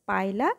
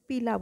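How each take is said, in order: First: The first syllable sounds like 'pie'. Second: The first syllable sounds like 'pee'. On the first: The speaker calls it right. "Scientifically এটাকে আমরা উচ্চারণ করি হচ্ছে পাইলা" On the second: The speaker calls it wrong. "তোমরা পায়লাকে উচ্চারণটা একটু ডিফারেন্ট ভাবে করো, সেটা হচ্ছে যে পিলা বলে থাকো"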